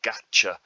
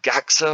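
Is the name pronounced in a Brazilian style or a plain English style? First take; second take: Brazilian; plain English. First: The name is said in a Brazilian-sounding way. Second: The name is said in a plain English way. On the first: "pronouncing it like a Brazilian" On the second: "Is it Gaxa"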